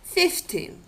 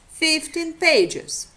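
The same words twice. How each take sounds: First: Fifteen said alone, stress landing on the second syllable; isolated word Fifteen, stress on -teen. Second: Fifteen pages slow, Fifteen stressed on its first syllable, pages weaker; phrase rhythm pulls the stress onto FIF in Fifteen; stress shift in phrase. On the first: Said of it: "rhythmic structure of the isolated word". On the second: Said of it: "doesn't coincide with that of a phrase". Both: Shown as a demonstration.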